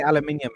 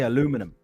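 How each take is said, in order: First: It is said in a British accent. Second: It is said in an American accent. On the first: "don't say aluminium" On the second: "You sounded so American when you said that"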